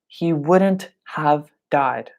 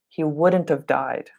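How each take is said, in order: First: The word have is said fully and slowly. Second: The word have is reduced, sounding like of. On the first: The speaker calls it wrong. "We don't usually say, ... That takes a lot of time to say" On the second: The speaker calls it right. "We like to say, ... So it sounds like of"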